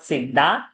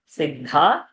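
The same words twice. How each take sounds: First: The 'd' sound is said without a breath. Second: The 'd' sound is said with a breath. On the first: The speaker calls it wrong. "not siddha" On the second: The speaker calls it right. "the dha mahaprana has to sound"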